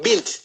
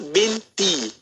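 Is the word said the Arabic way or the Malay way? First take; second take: Arabic; Malay. First: The word ends on a consonant, with no final vowel. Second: The word ends with an added final vowel sound. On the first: This is how Arabic speakers say it. "Dia sebut bint" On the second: This is how Malay speakers say it, to make it easier. "tapi kita binti"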